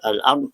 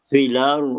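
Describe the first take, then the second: First: A glottal stop separates the article and the word. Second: The glottal stop is dropped and the sounds join. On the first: "daripada al-ard" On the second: "dipindahkan baris fathah hamzah kepada lam"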